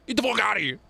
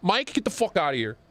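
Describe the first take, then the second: First: Higher, hammed-up get outta here; teasing the chatter with an exaggerated brush-off; mock dismissal. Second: Said in the usual way. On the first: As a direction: toss it off in a playful put-on voice.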